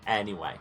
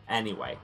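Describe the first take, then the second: No difference in how they are said.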